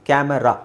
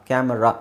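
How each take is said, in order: Both takes have the same delivery.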